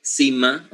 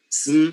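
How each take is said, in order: First: "sima" opened up as see-mah; inserted E sound. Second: Said in the usual way. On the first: Shown as a demonstration. Teacher breaking the sm cluster for students, inserted vowel. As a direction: put an "ee" between s and m in "sima". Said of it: "the sound E". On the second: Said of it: "all the clusters must be interrupted".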